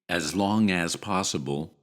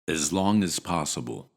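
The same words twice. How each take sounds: First: The first 'as' has a full, long vowel. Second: The first 'as' has a short 'eh' vowel. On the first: "instead of saying" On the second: "shorten it to as"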